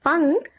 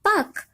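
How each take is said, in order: First: The word is said with a nasal sound. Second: The word is said without a nasal sound. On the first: "अनुस्वार लगाने से बनता है पंख" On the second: "फिर है पख"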